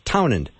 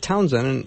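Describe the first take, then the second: First: The name has no s sound before the d. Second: The name has an s sound before the d. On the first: The speaker calls it right. "so it's Townend" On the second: The speaker calls it wrong. "I said Townsend, and I said it incorrectly"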